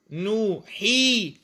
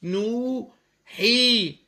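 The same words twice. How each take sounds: First: نوحي بمد طويل جدًا وبطء; امدد نوحي على مهل; مد بطيء. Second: نوحي بمد أطول وأبطأ; اسحب المد في نوحي طويلًا. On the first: (نوحي ممدودة ببطء) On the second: (نوحي بمد مبالغ فيه) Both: Shown as a demonstration. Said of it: "وساكن وقبله مكسور".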